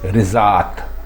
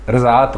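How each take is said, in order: First: The first vowel is a short 'i'. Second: The first vowel is a short 'a'. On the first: The speaker calls it right. "दुरुस्त लफ्ज़ है रिज़ात" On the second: The speaker calls it wrong. "रज़ात गलत है"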